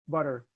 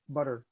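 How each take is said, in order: The two takes are said the same way.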